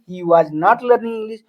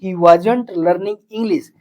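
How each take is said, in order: First: 'Was' and 'not' are said as two full words. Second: 'Was' and 'not' are merged into 'wasn't'. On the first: "वाज के बाद यानी helping verb के बाद हम नॉट लगा देंगे" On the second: "short में बोलेगे तो बोल दो ही वाजंट"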